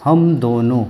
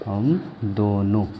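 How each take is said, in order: First: Said in the usual way. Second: हम दोनों very slowly and softly, a gap after हम; slow dictation. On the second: Shown as a demonstration. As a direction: dictate हम दोनों word by word, low and drawn out. वही शब्द धीरे दोहराना. (हम दोनों धीरे-धीरे, रुककर बोलें)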